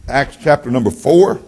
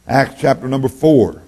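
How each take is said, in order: First: "Acts chapter number four" with the tune rising on "four"; first call of the text, rising on "four"; rising announcement. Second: "Acts chapter number four" with the tune falling firmly on "four"; falling announcement. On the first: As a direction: lift "four" at the end like a question. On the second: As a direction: land "four" down, settled. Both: Shown as a demonstration.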